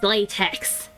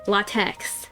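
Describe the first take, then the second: First: It is said like the material latex. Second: It is not said like the material latex. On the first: The speaker calls it right. "It's latex. Latex like the material? Yes" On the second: The speaker calls it wrong. "screw everyone that pronounces it latex"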